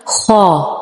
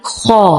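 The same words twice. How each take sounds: First: خا over-rounded, the wrong take. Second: خا heavy with a straight alif vowel; heavy خا, vowel kept straight; correct heavy خا. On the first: Teacher showing the wrong خا first. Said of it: "خا نہیں". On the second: Teacher giving the correct heavy خا. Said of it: "خا کو کس طرح؟". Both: Shown as a demonstration.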